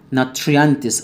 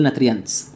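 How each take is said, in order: First: Said in the usual way. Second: "ناتريانتس" as "nat-ri-yants", t and r apart; mispronounced nutrients. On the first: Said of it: "اوعى تقول ناتريانتس". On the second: Shown as a demonstration. Teacher warning students, "ناتريانتس" wrongly said with plain t-r. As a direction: say "ناتريانتس" without the "chr" blend. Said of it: "اوعى تقول".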